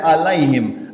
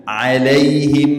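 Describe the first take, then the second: First: "alaihim" starting on a plain a, without ain; wrong ain demo. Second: Slow "Alaihim" starting with a throat ain; correct ain demo. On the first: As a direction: drop the throat sound from "alaihim". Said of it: "Jangan baca". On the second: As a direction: open "Alaihim" from mid-throat and draw it out. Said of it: "Jangan baca alaihim". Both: Shown as a demonstration.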